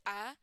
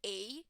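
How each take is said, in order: First: "a" said as a short, weak uh; schwa a. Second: "a" said as a full "ay" like the letter name; long ay a. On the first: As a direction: say "a" as a quick unstressed uh. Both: Shown as a demonstration. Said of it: "some people is going to pronounce it a".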